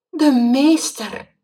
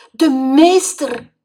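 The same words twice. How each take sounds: First: Slow, high, loud stunned repeat; shocked again. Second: Slow, high, loud dismayed cry; horrified gasp at the teacher's fate; shocked. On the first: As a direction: still horrified, say it again. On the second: Boy shocked, frog lost. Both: Acted.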